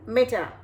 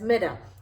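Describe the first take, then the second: First: It is said with a British accent. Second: It is said with an American accent. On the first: "the U K pronounce it as" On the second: "the U S pronounces it as"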